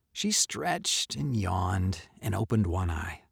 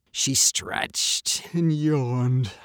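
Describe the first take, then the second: First: Said in the usual way. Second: Very slow, stretched-out yawn; yawning narration. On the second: A narrator's reading. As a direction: yawn through the words. Narrator acts out cat's yawn.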